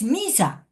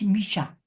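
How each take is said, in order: First: The middle consonant is a plain s sound. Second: The middle consonant is a sh sound. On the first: The speaker calls it wrong. "su pronunciación no es misa" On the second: The speaker calls it right. "es misha"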